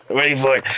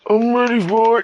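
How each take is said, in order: First: Eager, raised character voice; Kraz. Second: Extremely high, loud character voice; Dole. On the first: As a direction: insist eagerly in a higher voice. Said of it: "And Kraz goes". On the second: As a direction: push it way up high, loudly. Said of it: "And Dole just goes". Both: Acted.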